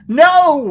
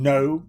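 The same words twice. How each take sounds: First: It is stretched angrily into two syllables. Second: It is one calm, short syllable. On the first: The speaker is angry. "when they get mad ... they add syllables to words" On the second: A plain refusal. "instead of saying no"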